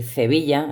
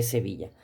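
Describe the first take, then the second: First: "Sevilla" con z inicial: "Zevilla"; ceceo andaluz. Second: Said in the usual way. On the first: Shown as a demonstration. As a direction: di "Sevilla" ceceando, la s como z. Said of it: "o decir Sevilla en vez de". ("Sevilla" con ceceo, empieza como "ce") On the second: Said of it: "vez de Sevilla".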